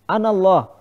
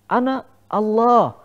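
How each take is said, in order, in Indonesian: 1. Diucapkan dengan intonasi biasa yang datar. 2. Diucapkan dengan intonasi yang menonjol dan berbeda. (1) "dia mengaku sebagai Tuhan" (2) "Intonasinya seperti itu"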